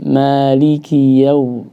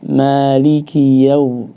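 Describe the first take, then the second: First: The li is short, calm and undoubled. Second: The li is short, calm and undoubled.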